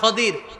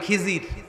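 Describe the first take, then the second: First: The name is said as Khadir. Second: The name is said as Khijir. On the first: This is the original form of the name. "তার নাম খদির" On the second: This is the local form of the name. "আমরা বাংলায় বলি খিজির"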